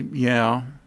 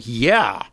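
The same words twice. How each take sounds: First: The word is said with low energy. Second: The word is said with high energy.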